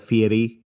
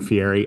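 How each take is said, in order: First: The name is said in a fancier, newer way. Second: The name is said in a plainer, older way. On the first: This is the newer pronunciation people now use. "they've really leaned into the Fieri" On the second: This is the older, usual pronunciation. "just saying Fieri"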